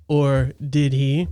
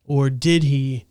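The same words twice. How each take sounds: First: Slow suspicious aside. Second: Dramatic slow. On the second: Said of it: "echoing co-host's Or did he". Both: Pretend.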